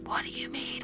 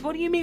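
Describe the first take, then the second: First: It is said quietly. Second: It is said loudly.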